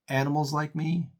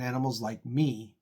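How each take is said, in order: First: The stress falls on the word animals. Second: The stress falls on the word me.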